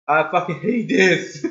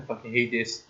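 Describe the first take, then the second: First: Voiced-out angry complaint; frustrated outburst. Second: Low, quiet grumble; muttered frustration. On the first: Player hating having to redo the chase, open frustrated outburst. Louder repeat of muttered curse. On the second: Player hating having to redo the chase, low muttered frustration. Same words muttered, then loud. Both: Real, not acted.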